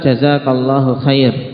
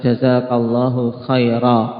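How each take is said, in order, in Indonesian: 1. Kata terakhir diakhiri dengan konsonan r. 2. Kata terakhir diakhiri dengan vokal a panjang. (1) "Ini juga wakaf yang tidak tepat" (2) "ketika mau wakaf dalam mengucapkan doa ini, ya dengan mengucapkan"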